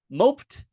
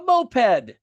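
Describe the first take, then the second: First: "moped" as "mopt", past tense of mope; one syllable. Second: "moped" as MO-ped, like the vehicle, drawn out; two syllables. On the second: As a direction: say "moped" as MO-PED, both vowels full. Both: Shown as a demonstration. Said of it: "Which one could it be?".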